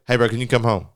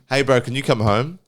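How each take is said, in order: First: The sentence ends abruptly, finished very quickly. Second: The sentence ends in a natural, unhurried way.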